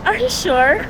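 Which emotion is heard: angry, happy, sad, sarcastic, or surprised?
sarcastic. It is said in a sarcastic tone.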